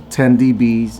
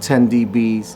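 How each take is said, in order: No difference in how they are said.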